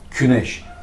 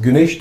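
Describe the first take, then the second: First: The word begins with a hard k sound. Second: The word begins with a soft g sound. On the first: "küneş diyor Orta Asya'da" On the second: This is the Anatolian form. "Biz güneş diyoruz"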